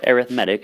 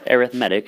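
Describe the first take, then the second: First: It has the adjective pronunciation of the word. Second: The same.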